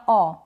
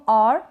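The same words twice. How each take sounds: First: औ as a long vowel, no R; slow, open औ without R; silent R. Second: और as a long vowel with a light R; slow और, R just sounded; slight R. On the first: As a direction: leave the R off औ entirely. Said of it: "दोनों ही तरीके से correct है". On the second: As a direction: end और on a faint R. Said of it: "इस तरीके से". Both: Shown as a demonstration.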